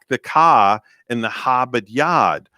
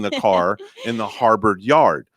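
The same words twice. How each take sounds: First: It is said in a Boston accent. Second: It is said in a general American accent. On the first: "Just like people from Boston, they say" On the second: "opposed to"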